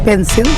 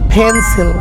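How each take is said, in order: First: The p sound has no puff of air. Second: The p sound has a strong puff of air. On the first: The speaker calls it wrong. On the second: The speaker calls it right.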